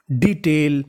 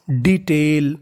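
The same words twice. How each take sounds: The two takes are said the same way.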